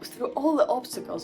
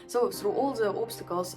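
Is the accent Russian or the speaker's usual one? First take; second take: usual; Russian. First: It is said in the speaker's usual accent. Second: It is said in a put-on Russian accent.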